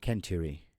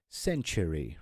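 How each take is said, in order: First: The word begins with a K sound. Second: The word begins with an S sound. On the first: The speaker calls it wrong. "rather than century" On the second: The speaker calls it right. "is century"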